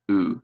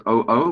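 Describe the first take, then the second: First: Oo as one soft, lower long vowel sound; just breathe out the single sound oo; the vowel sound alone. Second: O-O spelled as two letter names, O and O; name each letter in O-O separately; spelling the letters. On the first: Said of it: "but it has one vowel sound". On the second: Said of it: "has two vowels". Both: Shown as a demonstration.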